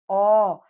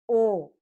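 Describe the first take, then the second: First: The vowel is said with the mouth wide open. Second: The vowel is said with the mouth nearly closed. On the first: "quando tiver o som da vogal aberta" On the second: "vamos utilizar com as vogais fechadas"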